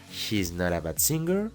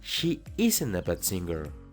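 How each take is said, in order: First: Is is joined to she; not stays separate. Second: Is is joined to not; she stays separate. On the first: The speaker calls it wrong. "en vez de decir" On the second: The speaker calls it right. "mejor di"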